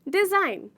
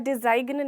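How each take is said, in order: First: The g sound is silent in the word. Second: A g sound is pronounced in the word. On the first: The speaker calls it right. "इसमें भी हम जी को पूरी तरीके से silent कर देते हैं" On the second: The speaker calls it wrong. "हम इसे डिज़ाइन नहीं बोलते"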